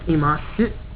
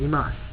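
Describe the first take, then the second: First: The final u vowel is pronounced. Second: The final u vowel is dropped. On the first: "see how it's, it ends with a su" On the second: "you can drop the U and just say imas"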